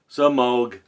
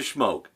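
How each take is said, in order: First: The name begins with a 'se' sound. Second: The name begins with a 'shm' sound. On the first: The speaker calls it right. "So I will pronounce it now, like S E as in C Moog" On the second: The speaker calls it wrong. "I always call it the Schmoke"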